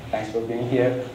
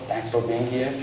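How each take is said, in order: Both takes have the same delivery.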